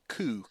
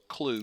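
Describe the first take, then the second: First: The word begins with a plain K sound. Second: The word begins with a K and L cluster. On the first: The speaker calls it right. "not K U, Ku Klux Klan" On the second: The speaker calls it wrong. "I always thought it was Clue, K L U"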